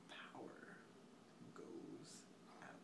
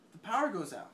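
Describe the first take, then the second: First: Very soft, broken up by long pauses; near-whisper, one word at a time; hushed dramatic repeat. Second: Said in the usual way. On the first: Real, not acted. Storyteller repeating that the power goes out, hushed and halting.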